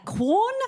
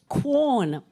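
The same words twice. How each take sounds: First: Quorn? with a high rising question lilt; apologetic question. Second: Said in the usual way. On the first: Shown as a demonstration. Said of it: "It's so apologetic". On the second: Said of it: "It sounds like a question".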